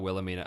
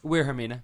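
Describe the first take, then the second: First: The name is said with an English accent. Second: The name is said with a Japanese accent.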